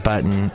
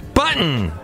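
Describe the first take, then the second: First: The word is said with ordinary, even emphasis. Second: The first syllable gets heavy, exaggerated emphasis.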